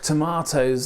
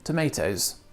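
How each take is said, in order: First: It is said with a British pronunciation. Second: It is said with an American pronunciation.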